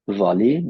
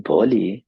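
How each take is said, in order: First: "Volley" with a clear v at the start; correct v sound. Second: "volley" said as "bolley"; wrong b sound. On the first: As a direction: begin "Volley" with lip on teeth. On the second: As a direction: start "volley" with a b instead of a v. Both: Shown as a demonstration. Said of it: "That's not volleyball".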